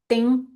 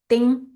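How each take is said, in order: First: The word starts with a hard d sound. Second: The word starts with a hard d sound.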